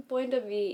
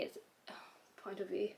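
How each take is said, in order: First: Said in the usual way. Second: Phrase broken by a hiccup and sigh. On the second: Real, not acted. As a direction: stumble through a hiccup.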